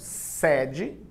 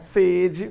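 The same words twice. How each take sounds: First: The first vowel is an open e. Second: The first vowel is a closed e. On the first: "aberto, fonema aberto" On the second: "fonema fechado"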